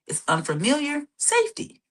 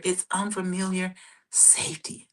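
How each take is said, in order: First: Said in the usual way. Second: Soft unvoiced whisper; hushed whisper of reassurance. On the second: Shown as a demonstration. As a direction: breathe it out like a secret. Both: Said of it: "let me say that again".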